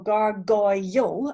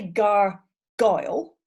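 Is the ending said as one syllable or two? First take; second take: two; one. First: The ending has a strong separate 'yo' sound. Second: The ending is said as one syllable. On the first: "you make it a very strong yo at the end" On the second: "count that last syllable as one syllable"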